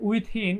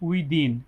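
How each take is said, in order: First: The middle th sound is voiceless, like 'thin'. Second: The middle th sound is voiced, like 'this'. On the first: The speaker calls it wrong. "উইথিন এরকম অনেকে উচ্চারণ করে" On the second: The speaker calls it right. "আসলে এখানে আপনারা হচ্ছে দি পড়বেন"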